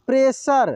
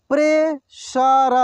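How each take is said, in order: First: Said in the usual way. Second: pressure drawn out slowly, syllable by syllable; slow sounding out. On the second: Shown as a demonstration. Teacher slowly sounds out pressure for students. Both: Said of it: "एक एक मात्रा को अलग अलग करके".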